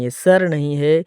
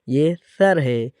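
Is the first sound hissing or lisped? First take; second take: hissing; lisped. First: The first sound is a hissing s. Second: The first sound is a soft lisped th. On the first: The speaker calls it wrong. "हम सा को सीन पढ़ लेते हैं" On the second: The speaker calls it right. "इस पर सीटी की आवाज़ नहीं आनी चाहिए।"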